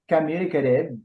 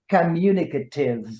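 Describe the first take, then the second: First: It is said with an American pronunciation. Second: It is said with a British pronunciation. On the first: "in American English" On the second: "I am giving you the British pronunciation"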